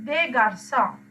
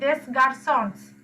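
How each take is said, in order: First: The final s of garçons is silent. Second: The final s of garçons is pronounced. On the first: The speaker calls it right. "you don't pronounce it" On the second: The speaker calls it wrong. "if you pronounce like that it's completely wrong"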